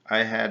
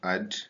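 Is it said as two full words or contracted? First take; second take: full; contracted. First: Both words are said in full. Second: The words are joined into one short syllable.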